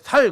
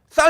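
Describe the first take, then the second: First: The first s sound is plain and soft. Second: The first s sound is tense and strong. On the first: The speaker is from the enemy group. The speaker calls it wrong. "경상 사람들이 이게 시어 쌍시오 발음 못하잖아요" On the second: The speaker is from the right group. The speaker calls it right. "쌀 해봐"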